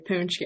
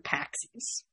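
First: The word is said like 'poonch-kee'. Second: The word is said like 'packsies'. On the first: This is the proper way of saying it. The speaker calls it right. "I'm going to say it right this time" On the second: This is the casual family way of saying it. The speaker calls it wrong. "when I talk to my family, I'll be like"

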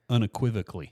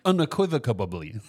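First: The word ends with a k sound in '-cally'. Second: The word has an added b sound in '-cably'. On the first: The speaker calls it right. "I was trying to say unequivocally" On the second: The speaker calls it wrong. "I just decided there should be a B in there"

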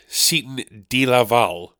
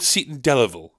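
First: The name is said with Spanish-sounding pronunciation. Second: The name is said with plain English pronunciation. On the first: "friend of mine once pronounced it Seton Delaval, as if it's like some fucking village in Spain" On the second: "It's called Seton Delaval, okay?"

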